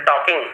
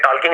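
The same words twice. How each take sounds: First: टॉकिंग read with no L, "taw-king"; silent L. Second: टॉकिंग misread with an audible L, "tol-king"; wrong L pronunciation. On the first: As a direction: leave out the L in टॉकिंग. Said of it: "अलग अलग पढ़ा". (टॉकिंग, बिना ल के "टॉकिंग") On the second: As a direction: sound the L in टॉकिंग before the k. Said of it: "टॉकिंग नहीं पढ़े थे". (टॉकिंग में ल सुनाई दे, "टॉल्किंग") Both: Shown as a demonstration.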